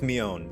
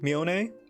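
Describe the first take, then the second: First: The name ends on the n sound. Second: A vowel is pronounced after the final n. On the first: The speaker calls it right. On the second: The speaker calls it wrong.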